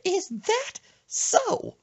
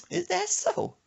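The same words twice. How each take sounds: First: Very high, slow, drawn-out skeptical question; grandma's slow high voice. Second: Put-on high, skeptical old lady voice; a sassy grandma drawing out the question; grandma's high voice. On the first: Retold or imitated. Grandma doubting her grandson, very high and slow. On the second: Grandma questioning Brandon, high and skeptical.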